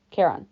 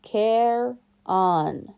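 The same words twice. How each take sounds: First: "Charon" blended, KAIR-on, falling; said together. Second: "Care on" as two slow syllables, care then on; sounding it out. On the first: Guard teaching his name, "Charon" joined. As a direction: join "Charon" smoothly into one word. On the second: Guard teaching his name, "Care on" split in two. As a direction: break "Care on" apart for the boy. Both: A narrator's reading. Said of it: "Say it with me".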